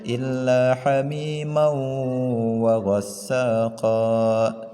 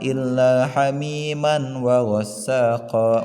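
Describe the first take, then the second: First: The n merges nasally into the following w. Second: A clear n sound is heard before wa. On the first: The speaker calls it right. "melainkan bacanya illa hamimau" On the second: The speaker calls it wrong. "bukan illa hamiman wa ghassaqa"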